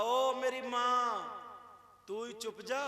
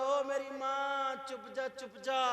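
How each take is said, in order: First: Higher, louder, very slow drawn-out plea with hands folded; mock begging husband. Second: Much higher and louder, slow drawn-out shout; mock shouted plea. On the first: Husband pleading with his wife, very slow and drawn-out. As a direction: stretch out the ओ like a henpecked husband begging. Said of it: "कहा". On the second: Husband shouting his plea at his wife, higher and louder. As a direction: yell ओ मेरी माँ at the wife. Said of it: "हाथ जोड़ के बोला".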